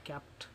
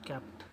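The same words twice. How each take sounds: The two takes are said the same way.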